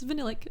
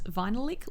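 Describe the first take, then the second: First: It begins with a short 'vuh' like vanilla. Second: It begins like the word vinyl, 'vine'. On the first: The speaker calls it right. "but it's Vanillic" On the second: The speaker calls it wrong. "I mispronounced it as Vinylic Lip because I always read it like a lick of vinyl"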